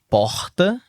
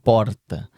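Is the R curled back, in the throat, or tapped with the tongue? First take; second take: throat; tapped. First: The R is made in the throat. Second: The R is made with the tongue tip. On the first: "tem o R do carioca, que é o R na garganta" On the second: "o teu é o R da língua"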